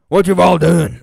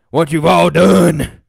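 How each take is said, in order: First: Said in the usual way. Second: Slow, ominous "what you've all done"; mock dramatic. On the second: Shown as a demonstration. Streamer showing chat the donations, slow mock-dramatic line. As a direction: lean into "done" like a grim accusation.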